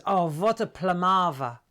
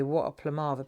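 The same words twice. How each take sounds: First: Imitating mum's German accent, "what" as "vot"; mock German accent, emphatic. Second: Lower, own southern London accent; everyday southern London delivery; southern London twang. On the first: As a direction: exclaim it like a German mother. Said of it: "when you've got a German accent". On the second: Shown as a demonstration. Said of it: "southern London twang".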